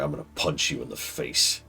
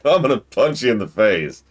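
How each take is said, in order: First: It is said seriously, with real menace. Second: It is said lightly, without real menace. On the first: The speaker seems to truly intend harm. "If I'm like this, ... then different" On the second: The speaker does not mean it as a real threat. "then that's not terroristic threat"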